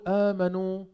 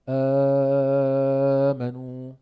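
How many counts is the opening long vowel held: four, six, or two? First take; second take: two; six. First: The opening long vowel is held for two counts. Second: The opening long vowel is held for six counts. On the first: "بتقول آمنوا عند حفص" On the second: "أو آمنوا"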